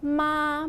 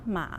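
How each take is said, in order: First: The pitch stays high and level. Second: The pitch dips low, then rises.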